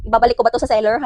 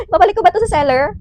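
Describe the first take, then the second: First: Said in the usual way. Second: High, quick tearful whine; mock crying. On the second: Vlogger threatening to return a dead mic, mock-tearful. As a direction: whimper it as a hammed-up complaint.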